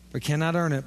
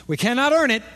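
First: Said in the usual way. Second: "earn" punched high and loud; preacher stressing "earn" with force. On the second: Shown as a demonstration. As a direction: hit "earn" hard, a shout in the sermon.

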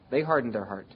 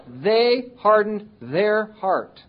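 First: Said in the usual way. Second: Very slow, weighty delivery of hardened; slow emphasis. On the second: Shown as a demonstration. Preacher driving home that they hardened their heart, very slow. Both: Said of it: "repeated for emphasis".

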